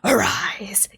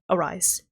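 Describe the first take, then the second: First: It is said dramatically, like an anime hero. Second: It is said casually, without drama.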